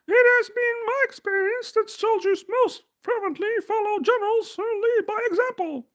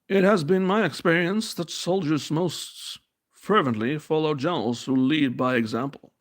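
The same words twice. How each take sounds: First: It is read in a put-on female voice. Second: It is read in his normal voice.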